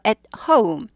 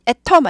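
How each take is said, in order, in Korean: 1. 'At'은 짧게 끊고, 'home'은 'oh-oo'로 미끄러지듯 발음합니다. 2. 'At'은 끊는 소리 없이 'home'으로 부드럽게 이어집니다. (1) "at 하고 스타카토, 그 다음에 호음, 오우 발음" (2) "아니고"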